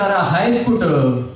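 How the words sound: It is spoken in a Kolhapur Marathi accent. "कोल्हापूरकडचा जो मराठी माणूस असतो तो म्हणतो"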